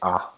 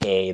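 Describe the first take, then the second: First: The letter is named with Twi pronunciation. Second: The letter is named with English pronunciation. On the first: "they say A" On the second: "we say A"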